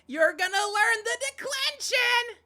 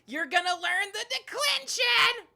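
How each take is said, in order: First: It is said in a plain voice. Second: It is said with a cowboy twang.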